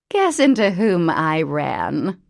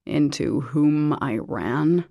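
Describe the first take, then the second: First: Loud, slow, lilting tease; haughty mother. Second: Slow, dry questioning echo; mocking echo. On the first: Mother to daughter, a slow loud tease. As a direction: savour the grand news. Mother announces her find. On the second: James to the mother, a slow dry echo. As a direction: parrot her grammar back. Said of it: "James echoed". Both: A narrator's reading.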